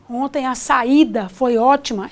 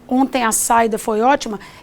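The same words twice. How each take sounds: First: The a and i are drawn out separately. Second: The a and i run together quickly. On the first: The speaker calls it right. "eu percebo essa demora" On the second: The speaker calls it wrong. "em vez de"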